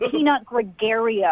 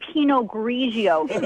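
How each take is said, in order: First: It is pronounced as Peanut Gregario. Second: It is pronounced as Pinot Grigio. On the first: The speaker calls it wrong. "not Peanut Gregario" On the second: The speaker calls it right. "how to say Pinot Grigio"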